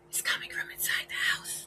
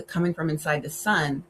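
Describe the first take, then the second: First: Hushed horror-trailer whisper, fading softer; spooky whisper. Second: Said in the usual way. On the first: Pretend. Vlogger teasing viewers with a horror twist, whispered. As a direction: whisper it like a scary tagline.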